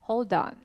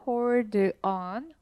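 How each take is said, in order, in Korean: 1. 두 단어를 빠르게, 이어서 발음합니다. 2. 두 단어를 천천히, 따로 발음합니다.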